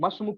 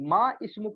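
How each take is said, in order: First: The ma runs straight into sm. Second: A glottal break comes before ism. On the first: The speaker calls it right. "मस्म का बोलते हो" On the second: The speaker calls it wrong. "आप नहीं बोलते"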